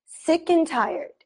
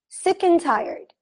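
The two takes are said the same way.

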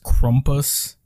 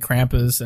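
First: It is said with the traditional pronunciation. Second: It is said with the American pronunciation. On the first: "I believe it's supposed to be pronounced Krumpus" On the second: "I think Americans say Krampus"

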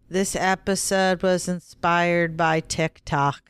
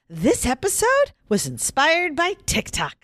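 First: It is said flatly with little pitch movement. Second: It is said with more lively pitch movement. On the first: The speaker calls it wrong. "with all the inflection of a turnip" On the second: The speaker calls it right. "Can I try it again?"

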